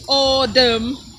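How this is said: The middle consonant is a soft D sound. "it's autumn, T's to D's"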